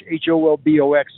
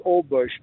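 First: H O L B O X spelled letter by letter. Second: Holbox said as one whole word, softly; pronounced as a word. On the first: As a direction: spell H O L B O X one letter at a time. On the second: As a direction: say Holbox as a single word, not spelled. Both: Shown as a demonstration. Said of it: "it's pronounced Holbox".

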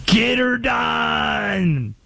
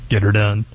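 First: Put-on slow, higher, shouted Southern accent, drawn out; hammed-up Southern accent catchphrase. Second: Put-on low, quick Southern accent, thrown away; a muttered echo in a slight Southern accent; understated Southern accent callback; lightly Southern. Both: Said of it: "It's always the Southern accent".

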